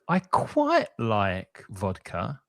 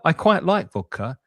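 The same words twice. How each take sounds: First: It sounds lukewarm and hesitant. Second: It sounds warm and enthusiastic. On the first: The speaker likes it only moderately. "I like it's okay. I'm not crazy about it" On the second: The speaker likes it a lot. "Means yeah, I like it a lot"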